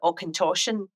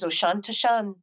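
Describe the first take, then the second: First: The name begins with an 'Auch' sound. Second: The name begins with an 'Osh' sound. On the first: The speaker calls it right. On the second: The speaker calls it wrong.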